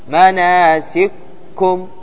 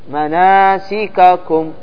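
First: The two k sounds merge into one doubled k. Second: The two k sounds are pronounced separately. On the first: This follows the reading of one reciter's tradition. "هذا عند السوسي" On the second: This follows the reading of another reciter's tradition. "حفص ماذا يقرأ؟"

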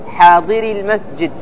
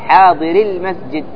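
Both takes have the same delivery.

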